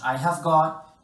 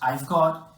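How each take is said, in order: First: The word have is said in full. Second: The word have is shortened to a 've.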